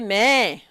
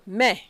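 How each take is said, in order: First: The vowel is dragged out long, like bleating. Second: The vowel is short and not dragged. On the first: The speaker calls it wrong. "You don't have to drag mai so that it... doesn't become like uh, the bleating of a goat. You don't say mai" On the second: The speaker calls it right. "So, mai"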